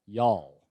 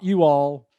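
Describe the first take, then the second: First: It is said as a single syllable. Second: It is said as two separate syllables. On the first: The speaker calls it right. "It's one syllable" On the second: The speaker calls it wrong. "not you all"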